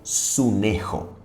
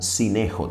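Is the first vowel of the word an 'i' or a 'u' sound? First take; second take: u; i. First: The first vowel sounds like 'u'. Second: The first vowel sounds like 'i'. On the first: "es la palabra griega sunejo" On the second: "Puede ser pronunciada como sinejo también"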